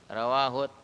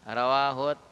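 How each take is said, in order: Both takes have the same delivery.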